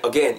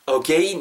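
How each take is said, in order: First: "again" said cleanly as "uh-gen"; neat two syllables. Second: "again" split as "o-gay-in"; three syllables. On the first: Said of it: "깔끔하게 이음절로 하세요". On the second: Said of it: "이렇게 삼음절 아니에요". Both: Shown as a demonstration.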